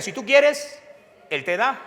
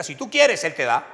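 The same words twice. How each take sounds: First: High, loud repeat of the chant; loud echo. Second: Preacher's call and response; call to repeat. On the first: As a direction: say it back with the crowd. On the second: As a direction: lead the congregation to echo it. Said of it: "¿Cómo es? Diga". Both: Shown as a demonstration.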